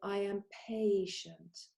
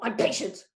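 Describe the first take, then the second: First: It is said calmly and patiently. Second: It is said hurriedly and impatiently.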